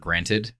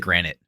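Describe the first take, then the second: First: The word ends with a clear 'ted' sound. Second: The word ends with a 'nit' sound. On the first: The speaker calls it right. "People say" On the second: The speaker calls it wrong. "I say granite. Like countertops"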